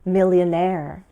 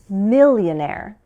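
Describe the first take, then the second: First: The stress is on the last syllable. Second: The stress is on the first syllable. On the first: "with stress at the end" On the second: "or at the beginning"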